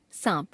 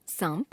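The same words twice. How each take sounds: First: Said in the usual way. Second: सांप with full m before p, rising; wrong pronunciation. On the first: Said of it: "शुद्ध". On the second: Shown as a demonstration. Teacher showing a common error, सांप as "saamp". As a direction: sound अनुस्वार as m in सांप. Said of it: "अशुद्ध".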